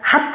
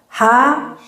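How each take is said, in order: First: The syllable ends with a clipped t sound. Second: The syllable ends on an open vowel. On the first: The speaker calls it wrong. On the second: The speaker calls it right.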